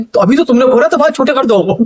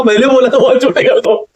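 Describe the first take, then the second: First: Said in the usual way. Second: Repeating बोला था बाल छोटे कर दो through a real laugh; laughing while quoting his own words back, a little incredulous. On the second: Real, not acted. To the furious barber, laughing at the mix-up, through giggles. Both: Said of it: "और मेरे को हंसी आ रही".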